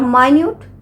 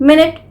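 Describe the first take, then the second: First: The first syllable is 'my', stress second. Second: The first syllable is 'min', stress first. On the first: Very small or fine. "और माइन्यूट भी pronounce करते हैं" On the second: Sixty seconds of time. "इसे हम मिनट भी pronounce करते हैं"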